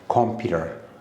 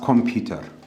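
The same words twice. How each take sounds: First: The consonant before the ending sounds like D. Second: The consonant before the ending is a clear T. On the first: The speaker calls it right. "but you have to read it like computer" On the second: The speaker calls it wrong. "we also read this as computer"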